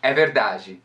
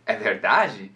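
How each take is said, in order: First: "É verdade" said as a closed statement; statement intonation. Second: "É verdade" as a question, pitch lifted on verdade; question intonation. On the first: Teacher contrasting statement and question, affirming intonation. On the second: Teacher contrasting question and statement, questioning intonation. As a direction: ask "É verdade", swinging up on the stressed syllable. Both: Shown as a demonstration. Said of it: "sem entonação nenhuma".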